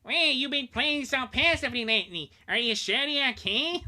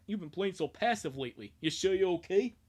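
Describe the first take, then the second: First: High, loud cartoon villain voice; Waluigi voice. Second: Said in the usual way. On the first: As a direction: camp it up like Waluigi. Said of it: "I should have done the Waluigi voice". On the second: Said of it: "should have done the Waluigi voice".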